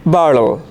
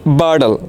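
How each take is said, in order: Both takes have the same delivery.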